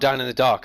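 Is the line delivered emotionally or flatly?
emotionally. It is said with feeling and expression. The speaker calls it right. "There you go, that's better"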